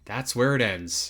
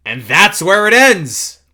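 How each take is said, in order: First: Soft, slow, understated close; subdued repeat. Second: Loud, high, drawn-out finale; dramatic announcement. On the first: Host closes out the demo footage, soft and subdued. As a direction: let it drop, quiet and unhurried. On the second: Host announces the end of the demo footage, loud and dramatic. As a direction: proclaim it big and slow, pitched up. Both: Real, not acted.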